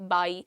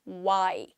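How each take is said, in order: First: It begins with upper teeth touching the lip. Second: It begins with rounded lips, no teeth contact. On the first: The speaker calls it wrong. "आपका जो front set of teeth है वो इधर लगेगा यहाँ lips पे" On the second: The speaker calls it right. "वो proper डब्ल्यू का प्रोनाउंसिएशन है"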